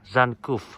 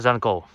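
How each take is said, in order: First: The word ends in an 'uf' sound. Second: The word ends in a plain 'o' sound. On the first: The speaker calls it right. "Itu dibacanya Zankuf" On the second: The speaker calls it wrong. "Pasti bilangnya Zanko"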